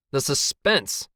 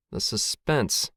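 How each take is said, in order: First: Higher, more forceful "The suspense!"; exclaimed suspense. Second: Slow, stretched "The suspense."; drawn-out suspense. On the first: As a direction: cry out "suspense" in exasperation. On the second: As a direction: draw out "suspense" slowly. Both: A narrator's reading. Dramatic repeat, killed by suspense.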